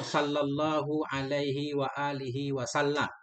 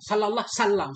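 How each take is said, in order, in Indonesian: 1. Frasa itu diucapkan dengan pelan dan jelas. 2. Frasa itu diucapkan terburu-buru dan tersambung tidak jelas. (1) "santai aja pelan-pelan" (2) "kayak enggak rapi banget"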